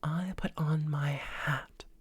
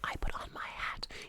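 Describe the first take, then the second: First: It is voiced, light and breathy. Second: It is whispered with no tone.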